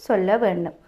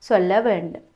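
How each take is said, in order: Both takes have the same delivery.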